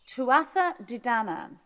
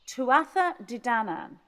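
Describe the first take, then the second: First: The name is said with all syllables in full. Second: The name is said with all syllables in full.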